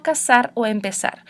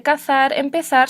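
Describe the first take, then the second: First: Casar o empezar with a plain s sound for z, Latin American style; teacher giving students the Latin American s sound; seseo pronunciation. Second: Cazar and empezar with a lisped th sound for z, as in northern Spain; teacher contrasting the northern th sound for her students; Castilian z sound. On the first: Teacher demonstrating Latin American seseo with a clear s. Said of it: "en Latinoamérica y el sur de España". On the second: Teacher demonstrating the northern Spain th for z. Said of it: "no se dice". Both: Shown as a demonstration.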